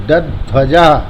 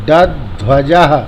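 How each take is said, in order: Both takes have the same delivery.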